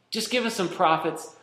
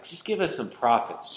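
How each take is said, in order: First: Mock pleading. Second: Said in the usual way. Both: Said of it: "so much easier to just go back".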